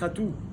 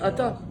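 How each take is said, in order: First: The word ends with an u vowel. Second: The word ends with an a vowel. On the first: "Il dit Atou, pas Ata" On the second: This is how we pronounce it. "Nous, on dit Ata"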